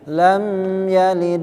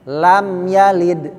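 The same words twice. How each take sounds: First: The m sound is held before the next word. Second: The m sound is released clearly without holding. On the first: The speaker calls it wrong. "jangan sampai ditahan ... enggak bisa" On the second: The speaker calls it right. "jelas namanya idhar syafawi"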